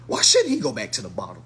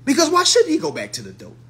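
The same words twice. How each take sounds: First: Lower, steadier repeat with stress on should. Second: High, louder stress on should; emphatic. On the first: Speaker repeating the relapse question to viewers, lower. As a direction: drop the voice down for the repeat. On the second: Speaker challenging viewers about relapse, emphatic and high. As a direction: punch should up high and hard. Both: Shown as a demonstration.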